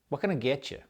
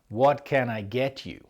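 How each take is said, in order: First: It is said fast with words squashed together. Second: It is said slowly with every syllable clear.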